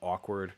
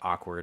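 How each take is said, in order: First: The first vowel is a rounded 'aw' sound. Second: The first vowel is an unrounded 'ah' sound. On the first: "So I would say" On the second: "a Californian might say"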